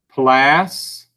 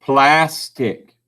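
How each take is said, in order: First: 'Plastic' as 'plas ... tic', long gap; syllable by syllable. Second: Said in the usual way. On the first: Shown as a demonstration. Teacher dictates for spelling, 'Plastic' syllable by syllable. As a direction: slowly break 'Plastic' into two separate halves. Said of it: "See if you can spell it". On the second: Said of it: "Let's take the word".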